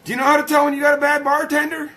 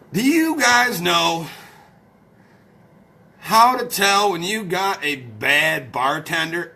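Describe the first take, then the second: First: Fast, high-pitched question; quick repeat. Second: Slow, drawn-out question; slow set-up. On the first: Streamer re-asking the joke set-up, fast and high. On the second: Streamer setting up a joke for followers, slow and deliberate. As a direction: stretch out each word of the question. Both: Real, not acted.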